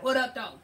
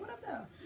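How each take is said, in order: First: It is said in an aggressive way. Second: It is said in a casual, friendly way.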